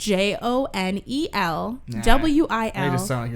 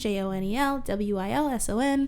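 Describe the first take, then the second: First: The letters are spelled out slowly. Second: The letters are spelled out very fast.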